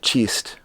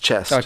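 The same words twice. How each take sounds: First: The vowel is an exaggerated New Zealand one. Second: The vowel is a standard North American one. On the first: The speaker calls it wrong. "you said chest" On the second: The speaker calls it right. "but it's"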